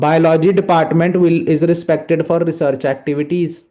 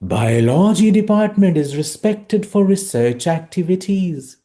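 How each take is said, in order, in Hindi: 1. शब्द छोटे और झटकेदार निकलते हैं। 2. शब्द सहजता से खिंचे हुए हैं। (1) "जीरो।" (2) "नाइन्टी।"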